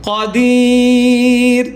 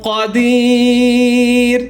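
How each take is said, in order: Both takes have the same delivery.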